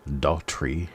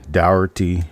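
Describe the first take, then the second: First: The name is said as Daughtry, starting with dot. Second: The name is said as Dougherty. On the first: The speaker calls it right. "you make a dot when you say our name" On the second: The speaker calls it wrong. "all kinds of different names they want to call me instead of reading it properly"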